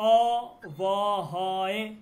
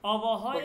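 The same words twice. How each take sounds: First: The vowels are stretched out long. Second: The vowels are kept short and quick. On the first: "টান দিবেন" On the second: "টান না দিয়ে পড়ি"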